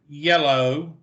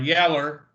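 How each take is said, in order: First: The word is said in a careful standard pronunciation. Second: The word is said in a casual regional pronunciation. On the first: "If you're from Perfectsville, you say yellow" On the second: "depending on where you're from"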